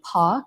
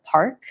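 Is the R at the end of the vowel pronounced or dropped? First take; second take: dropped; pronounced. First: The R is dropped, British-influenced style. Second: The R is pronounced, North American style.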